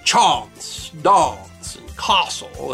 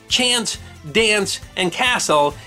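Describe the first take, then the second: First: The a vowels are not short. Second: The a vowels are short. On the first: This pronunciation came from an upper-class affectation. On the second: This is the older pronunciation.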